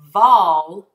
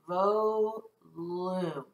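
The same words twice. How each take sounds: First: The first O is a short vowel sound. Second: The first O is a long vowel sound. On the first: The speaker calls it right. "my O will have a short vowel sound" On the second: The speaker calls it wrong. "O would be long"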